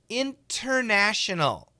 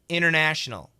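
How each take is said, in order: First: The T sound is clearly pronounced. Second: The T sound is dropped. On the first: "Perfect pronunciation" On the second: "If we say it fast, the T is canceled"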